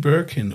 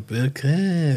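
First: It is said with an English pronunciation. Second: It is said with a French pronunciation.

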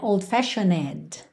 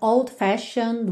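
First: The -ed ending is said as an extra syllable. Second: The -ed ending is silent, with no extra syllable. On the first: The speaker calls it wrong. "tem um E aí, mas você não pronuncia, você não vai dizer old-fashioned" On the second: The speaker calls it right. "Então old-fashioned way"

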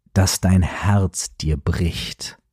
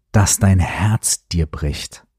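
No difference in how they are said.

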